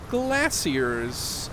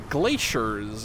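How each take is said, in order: First: The word has a British pronunciation. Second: The word has an American pronunciation. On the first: "as they would say in the Kingdom United" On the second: "as we say in the States Ununited"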